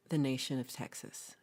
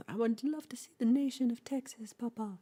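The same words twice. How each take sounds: First: Said in the usual way. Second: Put-on high, whispery little-boy voice; little boy pleading. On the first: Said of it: "he says this n-, normal". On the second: Pepe begging his papa in a high little whisper. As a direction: breathe it high and sweet like a small child.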